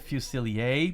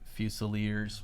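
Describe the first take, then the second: First: The word is pronounced the French way. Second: The word is pronounced the anglicized English way. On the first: "I think that's probably the correct pronunciation because it looks French" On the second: "the official G W pronunciation, I bet, ... because the English anglicize everything"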